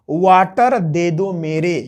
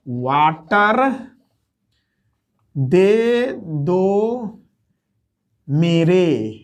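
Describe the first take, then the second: First: Said in the usual way. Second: water, दे दो, मेरे drawn out one by one with long pauses; teacher spelling out the mnemonic to students, very slowly; slowed right down. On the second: Shown as a demonstration. Water... दे दो... मेरे, each word stretched apart. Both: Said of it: "यानी".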